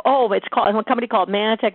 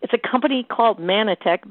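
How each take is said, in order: First: Mock long-winded answer, quick run-on delivery; going on and on. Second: Said in the usual way. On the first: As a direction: launch eagerly into a rushed over-explanation. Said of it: "go on and on". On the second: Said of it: "when we make it brief".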